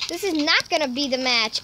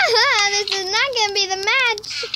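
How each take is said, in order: First: Said in the usual way. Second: Laughing, higher. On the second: Real, not acted. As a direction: laugh through the line. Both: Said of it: "I lied, okay?".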